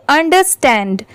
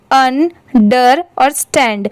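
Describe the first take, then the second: First: "understand" run together as one word; joined up quickly. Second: "अन, डर और stand" as three separate pieces, pauses between; separated syllables. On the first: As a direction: blend all three parts of "understand" at speed. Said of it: "साथ में मिला देंगे और speed में पढ़ेंगे". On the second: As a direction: break it up for learners: "अन", "डर", "stand". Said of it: "ये तीनों अलग-अलग लिखे रहे". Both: Shown as a demonstration.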